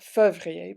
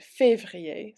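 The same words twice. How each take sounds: First: Février with a neutral "fuh" first syllable instead of "fay"; missing accent. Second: Février with a clear "fay" first syllable; accented é. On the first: French teacher showing the mistake in février, missing accent. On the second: French teacher correcting the accent in février, clear accented é. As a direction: say février slowly as "fay-vree-ay". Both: Shown as a demonstration. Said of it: "important not to forget the accents".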